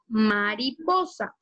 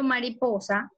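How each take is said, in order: First: Mariposa said slowly, syllable by syllable; slow syllable-split word. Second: Said in the usual way. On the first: Shown as a demonstration. Teacher slowly sounding out mariposa for the class. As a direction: pull mariposa apart into ma-ri-po-sa. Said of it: "digo mariposa". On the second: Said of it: "cuando yo pronuncio mariposa".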